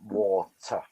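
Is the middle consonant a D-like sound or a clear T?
clear T. The middle consonant is a clear T sound. "rather than water"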